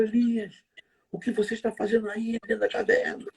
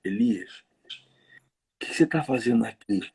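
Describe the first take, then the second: First: High, scolding demand; accusing God voice. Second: Gentle God voice. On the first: Preachers' version of God rebuking Elias, scolding. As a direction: call him out for hiding. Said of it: "Eu já vi alguns pregadores falarem assim". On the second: The text's God speaking gently to Elias in the cave. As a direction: ask kindly, like a caring friend. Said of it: "ó como é que muda". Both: Retold or imitated.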